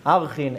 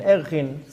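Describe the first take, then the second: First: "Archin" said with an opening AR sound; "Archin" starting on an AH vowel; alternative pronunciation. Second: "Erchin" said with an opening EH sound; "Erchin" starting on an EH vowel; alternative pronunciation. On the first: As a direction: say "Archin", first vowel open as in "are". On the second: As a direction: say "Erchin", first vowel as in "air". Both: Shown as a demonstration. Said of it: "some people pronounce it different".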